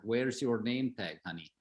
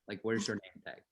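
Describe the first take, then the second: First: A fond Lebanese uncle scolding, "your" stressed; Lebanese accent. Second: Put-on softer Lebanese-accented repeat, punching "where's" in "where's your name tag". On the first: Retold or imitated. Uncle with a Lebanese accent chiding his nephew for no name tag. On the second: Uncle with a Lebanese accent repeating his question to his nephew, softer. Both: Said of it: "So they had, like, this accent".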